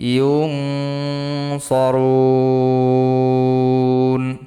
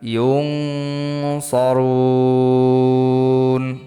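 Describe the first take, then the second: The two takes are said the same way.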